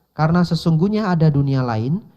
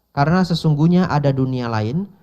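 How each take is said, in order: The two takes are said the same way.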